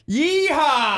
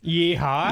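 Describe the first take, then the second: First: It is said loudly, with lots of energy. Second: It is said weakly, with little energy.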